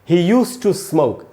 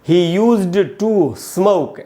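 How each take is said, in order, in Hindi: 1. used और to के बीच का जोड़ एक बार बोला जाता है। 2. used और to के बीच का जोड़ दो बार बोला जाता है। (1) "हमको ऐसे पढ़ना है" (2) "ऐसे नहीं पढ़ना चाहिए"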